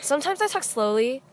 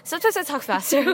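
First: Measured, slightly drawn-out words; talking slowly. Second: Quickened, playful delivery; talking faster. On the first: Showing friends own talking speeds, slowly. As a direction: ease off the pace a little. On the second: Showing friends own talking speeds, faster. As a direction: speed up the words a little. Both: Shown as a demonstration.

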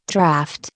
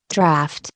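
First: A low, quiet sneer on one word. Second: Sneering. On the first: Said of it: "sneered the other man". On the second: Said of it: "sneered the other man, with a provoking laugh". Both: A narrator's reading. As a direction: scoff at the word Draft? with contempt.

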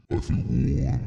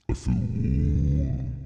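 First: Said in the usual way. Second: Much lower and very slow; a slow low "I feel warm"; low, slow drawl. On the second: Shown as a demonstration. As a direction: sink the voice down and stretch it. Repeats the line in different ways.

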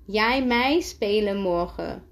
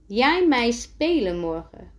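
First: "jij mij spelen morgen" restated, falling at the end; repeating to clarify. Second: "Jij mij spelen morgen" lifted as a question. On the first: Timo repeating himself to Elle, "jij mij spelen morgen" restated firmly. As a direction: stress "mij" and let "morgen" fall. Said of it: "herhaalt hij". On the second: Timo asking Elle to play, "Jij mij spelen morgen" as a question. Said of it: "vraagt Timo". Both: A narrator's reading.

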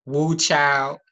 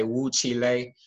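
First: Said in the usual way. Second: "woo chile" as people say it; people's pronunciation of "chile". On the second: Shown as a demonstration. Explaining slang words people borrow, "woo chile" in their pronunciation. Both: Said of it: "which people say woo chile".

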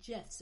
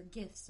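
First: "gifs" with a soft g, like "jifs"; soft-g pronunciation. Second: "gifs" with a hard g, as in "gift"; hard-g pronunciation. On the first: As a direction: begin "gifs" on a j sound. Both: Shown as a demonstration. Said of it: "or whatever they're called".

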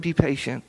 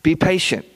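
First: Mock-casual, softer tossed-off line; offhand advice. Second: Firm, earnest mild plea; pleading. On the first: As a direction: toss it off like a glib tip. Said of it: "this isn't tweetable advice. It, it's not". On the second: Acted. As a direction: urge it like a sincere request. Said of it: "he's, like, pleading".

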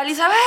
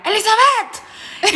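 First: Shorter, milder mock yell of a name; imitated shout. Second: High, drawn-out yell of a name; imitated shout. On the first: Boyfriend calling Elizabeth, milder imitated shout. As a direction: call the name out, half-hearted. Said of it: "Y le gritaba". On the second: Boyfriend yelling at Elizabeth in public, imitated shout. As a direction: call it out like a quarrelling boyfriend. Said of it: "él le gritaba a ella".

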